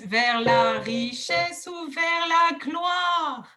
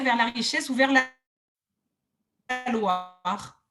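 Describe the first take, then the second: First: The G of gloire is clearly pronounced. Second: The G of gloire is barely heard. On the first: The speaker calls it right. "on donne du poids" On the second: The speaker calls it wrong. "on n'entend pas gloire, on entend loire"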